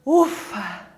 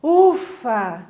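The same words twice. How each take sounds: First: Low "ufa" on a falling breath; breathy, relieved "ufa"; sigh of relief. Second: Heavy, weary "ufa"; a firmer, tired exhale; demonstrated tiredness. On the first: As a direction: let it out as a relieved exhale. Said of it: "De alívio". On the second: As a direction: puff it out as if worn out. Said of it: "De cansaço". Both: Shown as a demonstration.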